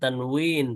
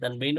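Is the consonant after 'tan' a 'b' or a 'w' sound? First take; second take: w; b. First: The middle consonant is a 'w' sound. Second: The middle consonant is a 'b' sound. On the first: This is the original way of saying the term. "আরবি উচ্চারণটা আমরা বলবো তানউইন" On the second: This is the local way of saying the term. "বাংলায় তানবিন বলা যায়"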